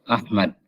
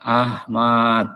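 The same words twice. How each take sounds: First: Both vowels are kept short. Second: Both vowels are drawn out long. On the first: This is the correct Arabic form. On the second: This is acceptable only in Indonesian. "Atau dipanjangin dua-duanya"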